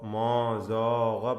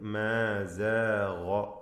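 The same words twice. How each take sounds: First: The word 'ma' is pronounced heavy. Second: The word 'ma' is pronounced light. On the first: The speaker calls it wrong. "പറയരുത്" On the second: The speaker calls it right. "ഇതിൽ ഗൈനിന് മാത്രമാണ് തഫ്ഖീം"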